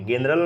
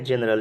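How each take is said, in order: First: The word begins with a hard g sound. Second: The word begins with a j sound. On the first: The speaker calls it wrong. "ग नहीं पढ़ेंगे, जनरल नहीं पढ़ेंगे" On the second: The speaker calls it right. "जी का उच्चारण क्या होगा, ज होगा"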